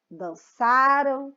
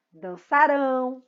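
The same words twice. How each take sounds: First: Dançaram very slowly, ÇA long and strong; dançaram, weight on the next-to-last syllable; stress on ÇA. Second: Dançarão slowly, final RÃO held; dançarão, drawn out to a stressed ending. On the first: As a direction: stretch ÇA in dançaram, let the end drop. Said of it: "são paroxítonos". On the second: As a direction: land on the last syllable of dançarão. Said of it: "é a última sílaba mais forte". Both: Shown as a demonstration.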